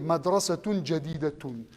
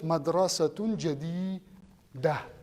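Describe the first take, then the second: First: The last word ends with a full -tun ending. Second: The last word ends in -ah, dropping -tun. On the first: "You can say madrasatun jadidatun" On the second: "when you stop, you just say"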